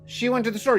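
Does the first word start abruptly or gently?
abruptly. The first word starts abruptly and hard.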